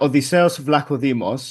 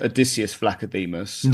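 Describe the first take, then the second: First: The name is pronounced with Greek sounds and stress. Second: The name is pronounced with English sounds and stress. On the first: "so it's a" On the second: "in English, it'd be"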